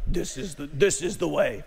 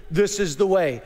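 First: A hint of a low, solemn Mandalorian voice, lightly done; mock the helmeted warrior's grave motto; Mandalorian line. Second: Mandalorian line. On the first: Preacher imitating the Mandalorians, lightly lowered voice. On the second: Retold or imitated. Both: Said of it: "I can't even say it like they do".

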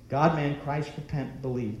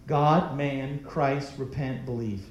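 First: Said in the usual way. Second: Slow, spaced words, each one weighed; measured, emphatic recitation; slow deliberate list. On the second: Shown as a demonstration. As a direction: lay out each word slowly and firmly. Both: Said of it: "that's just five words".

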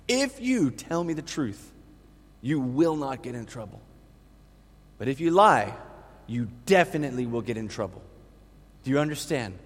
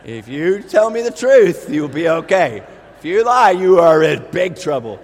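First: Gentle warning. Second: Stern mother. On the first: Father gently questions toddler. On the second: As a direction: lay down the law. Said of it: "Megan saying, "Drew". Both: Retold or imitated.

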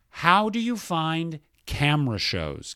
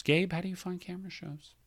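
First: Said in the usual way. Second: Much softer, like a sigh; soft mournful repeat. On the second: Shown as a demonstration. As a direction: let it drop to a sad hush. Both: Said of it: "I am going to read one sentence".

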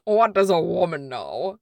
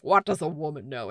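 First: Dramatic movie quote. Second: Said in the usual way. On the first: Retold or imitated. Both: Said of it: "how they did that dichotomy of".

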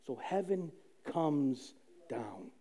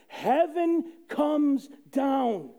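First: Slow and much softer, lower; hushed. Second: Proclaiming. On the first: Telling the congregation heaven came, hushed and slow. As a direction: let it sink in, almost a whisper. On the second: Preaching to the congregation, slow triumphant proclaim. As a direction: announce it triumphantly. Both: Real, not acted. Repeated line, hushed then proclaimed.

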